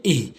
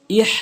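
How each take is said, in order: First: ইহ with a light h from the bottom of the throat; correct deep h. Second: ইহ with a tight h from mid-throat; wrong mid-throat h. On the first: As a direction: let ইহ breathe out from deep down. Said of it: "শুরু থেকে". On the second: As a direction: mistaken ইহ, h squeezed in mid-throat. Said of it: "হলকের মাঝখান থেকে বলা যাবে না". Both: Shown as a demonstration.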